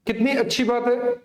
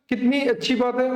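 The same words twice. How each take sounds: The two takes are said the same way.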